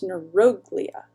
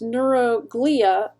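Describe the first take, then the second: First: The stress is on the third-from-last syllable. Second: The stress is not on the third-from-last syllable. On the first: The parts are joined into one word. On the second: The word's parts are said separately.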